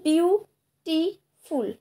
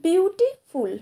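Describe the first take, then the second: First: beautiful very slowly as বিউ, টি, ফুল; beautiful syllable by syllable, widely spaced; split into three syllables. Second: Said in the usual way. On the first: Shown as a demonstration. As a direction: break beautiful into three beats with long pauses. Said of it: "এখানে তিনবার ঝোঁক নিতে হচ্ছে". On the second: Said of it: "যেমন দেখো".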